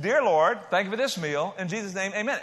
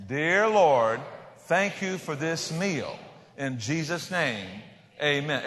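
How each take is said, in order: First: Higher-pitched, run straight through without pauses; breezy mealtime prayer in one go; easy, offhand prayer. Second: Slow, drawn-out phrases for a group to repeat; mock-difficult lesson, each word stretched out; slow lead-along prayer. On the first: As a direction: toss it off to show how easy it is. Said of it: "It's not hard to pray". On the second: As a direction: lead everybody through it very slowly, pausing after each phrase. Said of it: "Say it with me, everybody. This is hard". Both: Shown as a demonstration.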